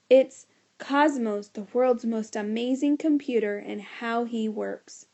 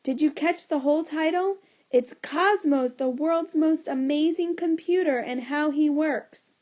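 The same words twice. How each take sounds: First: Loud announcing. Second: Louder yell. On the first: Boy announcing his talk title loudly to the teacher. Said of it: "do you mind not shouting". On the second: Boy yelling his talk title so everyone hears. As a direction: belt the title out even louder. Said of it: "yelled even louder". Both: A narrator's reading.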